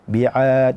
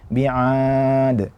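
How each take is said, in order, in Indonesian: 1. Ain keluar dari tengah tenggorokan. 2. Ain didorong keluar melalui hidung. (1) "Makhrajnya di wasatul halqi, di tenggorokan bagian tengah"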